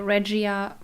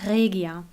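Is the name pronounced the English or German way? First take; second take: English; German. First: The name is pronounced the English way. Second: The name is pronounced the German way. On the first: "I always say Regia for you to that you know what I mean" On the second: "But it's Regia"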